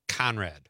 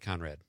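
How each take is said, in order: First: The opening consonant sounds like a sharper K. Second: The opening consonant sounds softer, less like K. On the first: The name is spelled with a K. "Conrad with a K is like Conrad" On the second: The name is spelled with a C. "Conrad is with a C is like Conrad"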